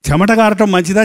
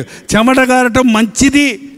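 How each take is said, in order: First: Said in the usual way. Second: చెమట కారటం మంచిది said slowly, మంచిది falling firmly; slow emphatic answer. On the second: Shown as a demonstration. Preacher settling his own question, slow and firm. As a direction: lay it down word by word.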